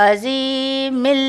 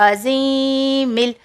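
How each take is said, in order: No difference in how they are said.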